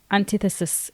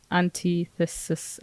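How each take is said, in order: First: Antithesis said an-TITH-uh-sis; "antithesis" in one go, short TI; confirmed pronunciation. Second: Antithesis sounded out as an-tee-thesis; slow, soft "antithesis" with a long TEE; unsure sounding-out. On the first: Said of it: "It is". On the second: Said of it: "how do you say it". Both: Shown as a demonstration.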